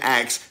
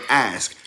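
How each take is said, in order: First: The word ends with a ks sound. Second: The word ends with an sk sound. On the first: The speaker calls it wrong. "You're saying ax instead of ask" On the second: The speaker calls it right. "You're saying ax instead of ask"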